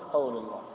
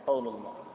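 The two takes are said the same way.

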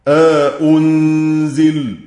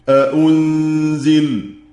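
First: A long 'a' separates the two glottal stops. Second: The two glottal stops follow with no vowel between. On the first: "له التحقيق مع الإدخال" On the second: "وعدمه"

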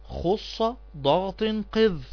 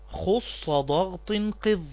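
Both takes have the same delivery.

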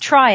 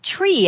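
First: The vowel sounds like "eye" as in triangle. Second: The vowel sounds like "ee" as in tree. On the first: The speaker calls it right. "it's tri as in triangle" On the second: The speaker calls it wrong. "I've been pronouncing it tree, and I have no idea why"

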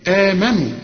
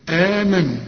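The two takes are said the same way.

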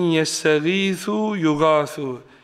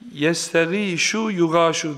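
First: The consonant is a soft 'th' sound. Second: The consonant is a 'sh' sound. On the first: The speaker calls it right. "peltek se" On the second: The speaker calls it wrong. "Yestegîşu yugâşu derdik"

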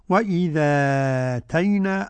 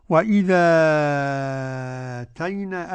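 First: The long vowel is held for four counts. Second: The long vowel is held for six counts. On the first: "أربعة مع النقل" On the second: "أدي ستة مع النقل"

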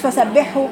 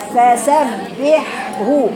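First: The two h-sounds are run together and blurred. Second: The two h-sounds are clearly separated and distinct. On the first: The speaker calls it wrong. "مش فسبحه" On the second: The speaker calls it right. "فصل بين الحاء وطول وبين الرخاوة وعين بعد كده جاب الهاء"

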